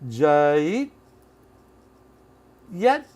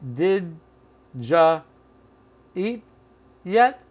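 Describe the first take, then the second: First: Did is dropped and you becomes ja. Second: The word you is reduced to ja. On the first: "Which is further reduced to" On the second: "Or did ja eat yet?"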